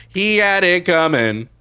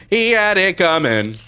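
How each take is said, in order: First: High, loud, slow menacing line; sinister mother. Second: Sinister mother. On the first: Streamer voices the killer mother, slow, high and loud. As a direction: say it like the mother who killed him. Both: Pretend.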